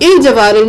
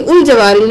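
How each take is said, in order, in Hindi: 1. वाक्यांश i स्वर से शुरू होता है। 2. वाक्यांश u स्वर से शुरू होता है। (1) "नहीं करेंगे" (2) "नहीं करेंगे"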